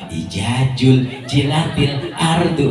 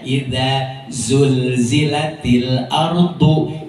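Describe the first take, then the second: First: The words are said with j sounds. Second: The words are said with z sounds. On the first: The speaker calls it wrong. "dibaca jim semua" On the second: The speaker calls it right. "Banyak kan zai, zal di depan"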